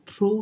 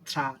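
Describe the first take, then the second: First: The syllable is said with an 'oh' vowel. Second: The syllable is said with an 'ah' vowel. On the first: The speaker calls it wrong. "থ্রো উচ্চারণ হওয়া উচিত" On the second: The speaker calls it right. "But উচ্চারণ হয় থ্রা"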